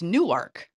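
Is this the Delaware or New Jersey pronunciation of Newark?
Delaware. It is said the way Delaware locals say it. The speaker is from Delaware. "But if you're from Delaware, it's Newark"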